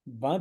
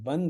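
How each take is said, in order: First: The vowel itself is nasalized, without a consonant. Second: A full nasal consonant follows the vowel. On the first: The syllable gains no extra weight. "बंध अनुस अनुनासिक है" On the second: The syllable gains extra weight. "बंध अनुस्वार है"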